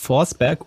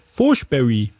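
First: The name ends with a final g sound. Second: The name ends with a final ee sound. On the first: "Und da hieß Forsberg" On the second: "Forsberry ausgesprochen"

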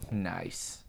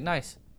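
First: It is said in a weird, creepy way. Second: It is said casually, just passing it by.

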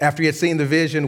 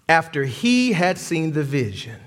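First: The phrase is read quickly. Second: The phrase is read slowly. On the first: The speaker calls it wrong. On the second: The speaker calls it right.

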